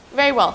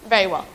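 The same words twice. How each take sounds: First: A mild sigh of giving in; Very well, let it drop, slightly falling; resigned. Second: Very well, short and brisk, lower; crisp. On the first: Anne to Marilla, giving in resignedly. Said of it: "said Anne resignedly". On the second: Marilla to Anne, crisp and unmoved. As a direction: clip it off without showing relief. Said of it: "Marilla's crispness". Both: A narrator's reading.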